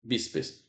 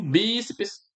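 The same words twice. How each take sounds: First: Said in the usual way. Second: "bíceps" with the BI stretched long and raised; stress on first syllable. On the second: Shown as a demonstration. Teacher showing the class the strong syllable, stressed BI in "bíceps". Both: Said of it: "a sílaba forte é essa daqui".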